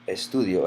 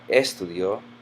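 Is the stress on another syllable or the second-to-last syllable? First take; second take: second-to-last; another syllable. First: The stress falls on the second-to-last syllable. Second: The stress falls away from the second-to-last syllable. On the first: The speaker calls it right. "it ends in a vowel, it is estudio" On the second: The speaker calls it wrong. "and not estudio"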